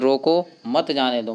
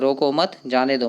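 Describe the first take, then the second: First: There is a pause right after roko. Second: There is a pause right after mat. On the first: The speaker wants the person stopped. "मतलब रोकना चाह रहा है" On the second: The speaker wants the person let go. "वो जाने के लिए बोल रहा है"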